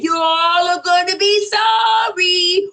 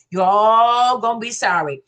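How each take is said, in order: First: Slow, high, sung-out warning; sung, slow singsong prophecy, rising at the end; sung, prophetic singsong. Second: Said in the usual way. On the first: Retold or imitated. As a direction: chant it like a prophecy, drawn out. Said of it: "Roxanne said". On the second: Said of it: "prophetic message".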